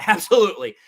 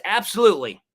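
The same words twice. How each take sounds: First: "Absolutely" said through a laugh; laughing agreement. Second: Said in the usual way. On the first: Real, not acted. Host agreeing again with a viewer, laughing.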